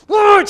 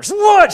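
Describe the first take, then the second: First: Loud, high "what?" snapped back; sharp what. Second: Loud, high-pitched snap of "What?"; sharp loud what. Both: Retold or imitated. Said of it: "she says".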